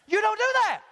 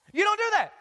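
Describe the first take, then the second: No difference in how they are said.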